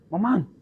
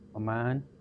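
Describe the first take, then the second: First: The name is shouted loudly. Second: The name is said softly and quietly.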